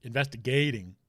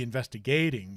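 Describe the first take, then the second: First: Investigating said again carefully with the right stress; corrected stress. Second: Investigating with the stress slipped onto the wrong syllable; investigating said with awkward off-stress; misplaced stress. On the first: Shown as a demonstration. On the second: Real, not acted. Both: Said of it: "why did I use the wrong emphasis on the wrong syllable there".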